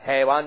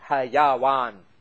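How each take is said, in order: First: It is said as two syllables, hai-wan. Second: It is said as three syllables, ha-ya-wan. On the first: The speaker calls it wrong. "حیوان نہیں" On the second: The speaker calls it right. "یہ کے اوپر بھی زبر"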